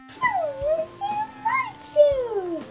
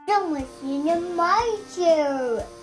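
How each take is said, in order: First: It is said in a middle, moderate voice. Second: It is said in a great, rough, gruff voice.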